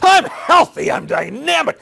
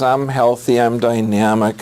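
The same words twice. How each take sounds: First: It is said loudly with lots of energy. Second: It is said quietly with little energy. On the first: The speaker sounds convinced. The speaker calls it right. "you can feel my tissue regeneration from there, can't you?" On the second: The speaker does not sound convinced. The speaker calls it wrong. "You're not believing me, are you?"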